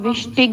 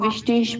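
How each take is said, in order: First: The word ends with a hard g sound. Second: The word ends with a soft sh-like sound. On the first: The speaker calls it wrong. "इसको आप विष्टिग नहीं पढ़ेंगे" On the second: The speaker calls it right. "इसको आप विष्टेश पढ़ेंगे"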